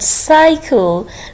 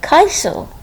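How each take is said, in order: First: The word begins with an S sound. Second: The word begins with a K sound. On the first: The speaker calls it right. "The first C is giving S sound" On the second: The speaker calls it wrong. "Why we cannot pronounce it like Kaisel?"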